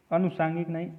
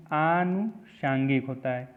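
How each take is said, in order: First: अनुषांगिक with a short अ at the start; wrong spelling said. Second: आनुषांगिक with a long आ at the start, spoken slowly; correct form said slowly. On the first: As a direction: say अनुषांगिक with a short first vowel, as the wrong form. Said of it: "अनुषांगिक नहीं होता है, आनुषांगिक होता है". (अनुषांगिक छोटे अ से, गलत रूप) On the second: (आनुषांगिक लंबे आ से, धीरे बोलें) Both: Shown as a demonstration.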